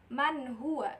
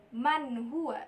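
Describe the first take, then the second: Both takes have the same delivery.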